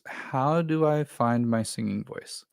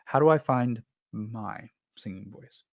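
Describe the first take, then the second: First: It is said without special stress on my. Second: The stress is on the word my.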